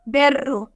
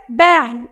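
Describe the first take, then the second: First: Berro with a closed e and a tapped r; Spanish berro. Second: Berro with an open e, like bé-ho; Portuguese berro. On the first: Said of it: "Em português é berro". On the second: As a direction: say berro the Brazilian way, open vowel and throaty r. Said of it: "Esse é, é aberto". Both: Shown as a demonstration.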